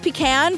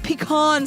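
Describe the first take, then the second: First: It is said in a plain, everyday way. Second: It is said in a fancy-sounding way. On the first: This is the speaker's usual pronunciation. "I think it's pecan" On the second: It sounds like trying to be fancy. "pecan sounds like I'm trying to be fancy"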